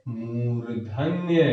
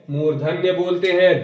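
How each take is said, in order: First: Slow, softer, every sound of मूर्धन्य drawn out; teacher stretching मूर्धन्य as a model; drawn-out answer. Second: Said in the usual way. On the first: Shown as a demonstration. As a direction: spell out मूर्धन्य slowly for the class. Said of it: "उनको हम कौन से वर्ण बोलते हैं?". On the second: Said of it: "कौन से वर्ण बोलते हैं?".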